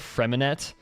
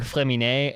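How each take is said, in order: First: The name is said with an English-style pronunciation. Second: The name is said with a French-style pronunciation. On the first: This is how many people say it. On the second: This is a concession to the original language.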